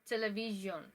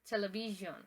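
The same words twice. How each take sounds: First: It is pronounced the English way. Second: The same.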